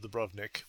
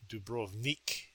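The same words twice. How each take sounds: First: The name is said the familiar English way. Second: The name is said the native Croatian way. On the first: "my traditional Dubrovnik" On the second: "the Croatians pronounce as Dubrovnik"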